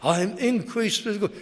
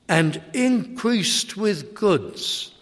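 First: Increased lifted high and stressed; increased stressed above the rest. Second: Slow, drawn-out increased; stress on increased. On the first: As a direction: put the weight on increased. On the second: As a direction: lean on the word increased. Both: Shown as a demonstration. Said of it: "Let's put the emphasis on the increased".

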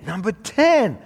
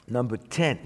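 First: TEN pitched high and loud; loud announcement. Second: Said in the usual way. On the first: Real, not acted. Preacher announcing number ten to the congregation, loudly. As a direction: call it out louder and higher. Repeats the point number emphatically.

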